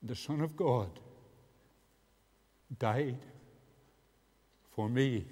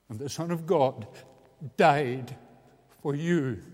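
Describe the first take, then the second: First: Said in the usual way. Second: And the Son of God died for you, with died hit much louder and falling; stress on died. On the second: Shown as a demonstration. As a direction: punch died hard, then lean on you.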